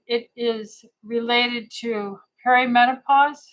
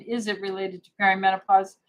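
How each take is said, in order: First: "perimenopause" lifted at the end into a question; read as a question. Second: Quicker restatement, "perimenopause" settling without the big lift; question reworded plainly. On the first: Doctor reading out a viewer's message, questioning rise on "perimenopause". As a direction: let "perimenopause" rise questioningly, as if unsure of the written statement. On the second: Doctor clarifying what the viewer is asking, brisk restated question with "perimenopause" kept down. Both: Real, not acted. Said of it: "She's saying that as a question".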